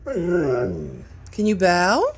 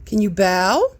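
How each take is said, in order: First: Slow, drawn-out pleading ask; drawn-out coax. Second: Said in the usual way. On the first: Shown as a demonstration. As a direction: stretch it out to coax the dog. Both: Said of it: "Can you show Mommy bow?".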